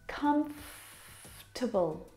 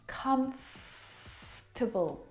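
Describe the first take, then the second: First: The middle vowel is skipped, giving three syllables. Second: The same.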